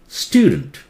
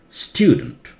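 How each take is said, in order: The two takes are said the same way.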